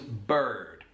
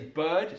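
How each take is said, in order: First: The word is said in a West Country accent. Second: The word is said in a neutral accent. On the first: It copies how someone else said it. "Did you hear how she said bird there? It was bird" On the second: It is how the speaker normally says it. "I would say bird"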